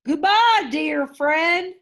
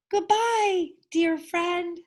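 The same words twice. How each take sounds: First: Rumbling whale. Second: High, squeaky little mouse voice; a tiny mouse squeaking goodbye to his whale friend. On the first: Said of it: "rumbled Boris". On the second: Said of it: "squeaked Amos". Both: A narrator's reading.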